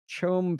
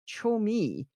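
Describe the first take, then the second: First: The word ends without a final vowel sound. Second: The word ends with a clear final vowel. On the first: The speaker calls it wrong. "I was drastically mispronouncing it" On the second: The speaker calls it right. "The C H O M E, I think, is Chomi"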